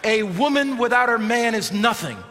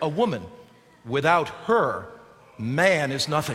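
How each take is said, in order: First: It is said without a pause after 'her'. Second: It has pauses after 'woman' and after 'her'.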